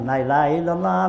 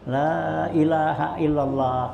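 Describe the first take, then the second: First: The opening syllable is said short and quick. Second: The opening syllable is drawn out long. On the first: The speaker calls it wrong. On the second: The speaker calls it right. "la-nya tuh panjangin"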